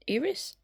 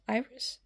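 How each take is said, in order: First: "Iris" with a short i, as in "irritate", rising high like a question; "Iris" said "IR-is" with a questioning high rise; unsure pronunciation. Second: "Iris" with a long I, as in "eye-ris", rising like a question; "Iris" said "EYE-ris" with a questioning rise; unsure pronunciation. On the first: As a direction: try "Iris" as "EER-is", asking. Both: Shown as a demonstration. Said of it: "I don't know how to say her name".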